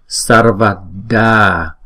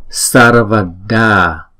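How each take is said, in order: Both takes have the same delivery.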